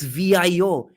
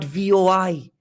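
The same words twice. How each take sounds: First: "V I O" louder and higher, letter by letter; correcting spelling aloud. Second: "V O I" higher, letter by letter; wrong spelling spelled out. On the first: Correcting North Indians, exasperated, emphatic "V I O". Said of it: "It's not V O I". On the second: Rejecting the North Indian version, emphatic "V O I". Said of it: "keep pronouncing it as V O I". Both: Shown as a demonstration.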